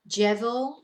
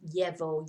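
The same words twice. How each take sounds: First: The 'll' sounds like an English 'j'. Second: The 'll' sounds like an English 'y'. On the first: This is a Colombian, South American accent. "I'm saying it more in a Colombian, South American way, which is this j sound" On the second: This is a Spain accent. "In Spain, they probably use more of a y sound"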